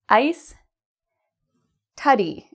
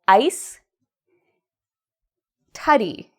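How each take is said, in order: Both takes have the same delivery.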